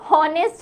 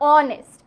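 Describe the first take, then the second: First: The word begins with an h sound. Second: The word begins directly with a vowel. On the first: The speaker calls it wrong. "হ উচ্চারণ হলে সেটা কিন্তু হনেস্ট হতো" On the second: The speaker calls it right. "হ উচ্চারণ হয় না"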